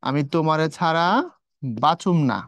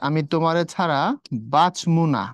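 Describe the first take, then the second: First: The verb sounds like 'bachum', vowel after ch. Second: The verb sounds like 'bachmu', vowel after m. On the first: "বাচুম চর নিচে হচ্ছে তোমার রস্যকার" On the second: "এখানে হচ্ছে বাচমু, মন নিচে"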